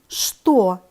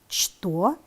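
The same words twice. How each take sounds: First: It is said with its normal spoken pronunciation. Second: It is read exactly as it is spelled. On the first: "произносим" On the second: "Пишем"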